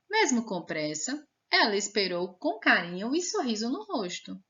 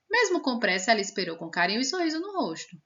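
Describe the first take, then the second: First: A short pause follows the word 'pressa'. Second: The sentence runs on with no pause. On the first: The speaker calls it right. "foi uma pausa bem rapidinha e a gente já retomou a frase" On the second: The speaker calls it wrong. "Sem a vírgula ficaria assim. Tudo de uma vez, pá, como se fosse uma corrida"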